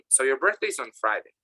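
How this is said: The voice falls at the end. The speaker is sure about it. "The intonation goes down"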